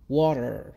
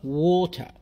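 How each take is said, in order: First: It is said in an American accent. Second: It is said in a British accent. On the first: "واللهجة الأمريكية" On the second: "باللهجة البريطانية"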